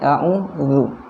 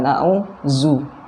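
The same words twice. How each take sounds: First: The middle consonant is a soft 'dh' sound. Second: The middle consonant is a buzzing 'z' sound. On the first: The speaker calls it right. "Jadi a'udzu" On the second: The speaker calls it wrong. "bukan a'udzu ya"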